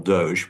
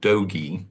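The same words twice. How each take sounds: First: It is said with a French-style pronunciation. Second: It is said like 'dogies' in the cowboy song. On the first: The speaker calls it wrong. "I find that a sort of French French pronunciation" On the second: The speaker calls it right. "I prefer the Southwestern Doge, as in get along, little doggies"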